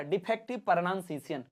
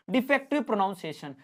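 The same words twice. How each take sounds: First: प्रोनाउंसिएशन slurred into a sloppy "pernansisiyan"; deliberate mispronunciation. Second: Said in the usual way. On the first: Shown as a demonstration. Teacher showing students bad pronunciation, sloppy mumble. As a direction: mangle प्रोनाउंसिएशन on purpose, sloppy syllables. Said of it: "अभी जो मैंने अभी किया defective प्रोनाउंसिएशन". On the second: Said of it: "जैसे अभी कह रहा हूँ डिफेक्टिव प्रोनाउंसिएशन".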